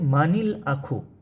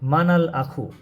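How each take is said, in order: First: The linking vowel after man is i. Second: The linking vowel after man is a. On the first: The speaker calls it right. "কাসরা হবে" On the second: The speaker calls it wrong. "এইখানে যদি ফাতা দেওয়া হইতো কী হইতো?"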